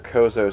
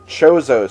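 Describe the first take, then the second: First: The name begins with a hard k sound. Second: The name begins with a ch sound. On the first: The speaker calls it wrong. "as you guys keep uh, trying to correct me with" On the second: The speaker calls it right. "apparently it is Chozo"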